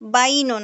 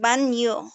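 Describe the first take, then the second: First: An i-glide comes before a plain n. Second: A y-glide comes right after the n. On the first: The speaker calls it wrong. "বাইনো না" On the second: The speaker calls it right. "উচ্চারণটা হবে বান ইয়ো"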